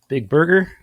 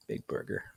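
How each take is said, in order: First: Loud. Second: Whisper. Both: Acted. Typing the design name.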